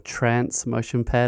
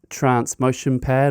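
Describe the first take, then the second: First: Trance is said with an American-sounding vowel. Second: Trance is said with a British-sounding vowel.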